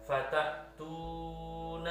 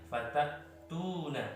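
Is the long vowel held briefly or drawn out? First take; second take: drawn out; briefly. First: The long vowel is held well beyond two counts. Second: The long vowel is held for two counts. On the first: The speaker calls it wrong. "nggak boleh dibaca" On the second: The speaker calls it right. "cukup satu ayunan saja"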